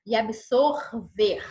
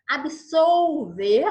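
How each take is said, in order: First: Absorver said slowly with a clear R sound in the middle; slow, deliberate absorver as a teacher's model; careful teacher pronunciation. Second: Absolver said slowly and clearly with an L sound, not R; slow, clear Absolver as a teacher's model; careful teacher pronunciation. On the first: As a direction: stress the R in absorver so it sets off from absolver. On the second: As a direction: stretch out Absolver syllable by syllable so the L is heard. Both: Shown as a demonstration. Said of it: "Isso aí causa um problema sério".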